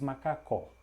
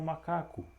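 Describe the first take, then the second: First: The final vowel is an open o sound. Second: The final vowel is a closed o sound. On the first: "o som do O aberto" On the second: "algumas pessoas falam macaco"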